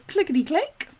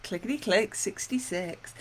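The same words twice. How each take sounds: First: Sing-song bingo call; bingo caller. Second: Bingo caller. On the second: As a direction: announce the number to the hall. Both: Retold or imitated. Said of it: "I've called bingo".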